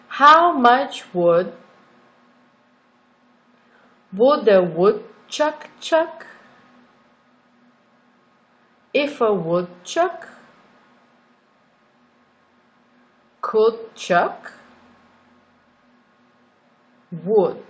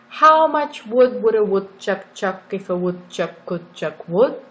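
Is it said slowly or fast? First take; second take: slowly; fast. First: It is said slowly. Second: It is said fast.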